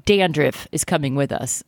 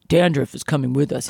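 First: Said in the usual way. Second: Thug line in a deep voice; deep, heavy tough-guy read. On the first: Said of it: "he says in a". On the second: Retold or imitated. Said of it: "he says in a deep voice".

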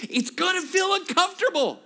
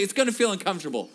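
First: Much higher, louder shouted line, stressing feel; preacher's shout. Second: Said in the usual way. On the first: Shown as a demonstration. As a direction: shout it so the whole room repeats it. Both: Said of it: "Turn to your neighbor and say".

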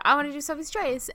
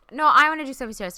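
First: Her own earlier words, lightly replayed; quoting herself, mildly eager; retelling own request. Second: Louder, faster mock insistence; Sinclair's insistent reply. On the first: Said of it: "I actually said". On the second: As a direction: bulldoze over her, teasing. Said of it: "Sinclair, you were like".

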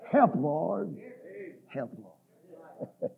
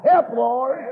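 First: Low, hushed cry for help; fading plea. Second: Said in the usual way. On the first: Acted. Preacher echoing the cry for help, low and fading. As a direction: let it sink away to almost nothing. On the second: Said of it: "it'll be then we cry".

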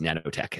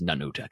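First: "nanotech" said with a flat a, like "nan"; Sparks's pronunciation. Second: "nanotech" said with an open ah, like "nah-no-tech"; Martian pronunciation. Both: Shown as a demonstration. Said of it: "they always pronounce it as nanotech".

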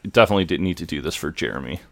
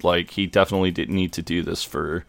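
First: Fast, tumbling repeat; hurried second take; rushed restatement. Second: Said in the usual way. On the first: Real, not acted. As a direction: rush through "definitely didn't need to do this for Jeremy". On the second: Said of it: "yeah, definitely didn't need to do this for Jeremy".

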